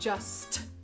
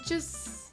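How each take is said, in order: First: The final T sound is clearly pronounced. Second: The final T sound is dropped. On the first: The speaker calls it wrong. "So we're not saying just" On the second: The speaker calls it right. "we often don't pronounce the final T. We'll just pronounce the S"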